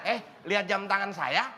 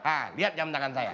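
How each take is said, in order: First: The voice rises at the end, like a question. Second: The voice falls at the end, like a statement. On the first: It is asked as a question. The speaker calls it right. "Orang nanya, ... Nah gitu" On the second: It sounds like an order, not a question. The speaker calls it wrong. "orang nanya itu nadanya nggak gitu"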